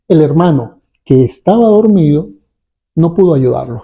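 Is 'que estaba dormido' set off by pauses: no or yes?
yes. Pauses set off the middle phrase on both sides. It explains why the brother could not help. "Fíjense ustedes la modulación de mi voz. Esto tiene una carga explicativa"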